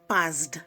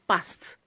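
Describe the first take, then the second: First: The ending is said as a d sound. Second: The ending is said as a t sound. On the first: The speaker calls it wrong. "Not passed" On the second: The speaker calls it right.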